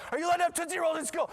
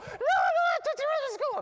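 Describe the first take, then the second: First: High, loud, rapid-fire interrogation; imitated scolding teacher. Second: Very high, loud mock child's wail; crying little girl. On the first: Teacher questioning girl about Tootsie Rolls, mock shouted scolding. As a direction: shout it fast like an outraged teacher. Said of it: "the teacher's like". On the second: Six-year-old confessing to teacher about candy, exaggerated high crying. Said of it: "This poor little girl's crying".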